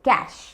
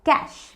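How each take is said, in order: First: It has one syllable ending in sh. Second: It has one syllable ending in sh.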